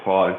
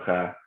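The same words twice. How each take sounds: First: The vowel is heavy and rounded. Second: The vowel is light and open. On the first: The speaker calls it right. "you'll say ha" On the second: The speaker calls it wrong. "instead of ha"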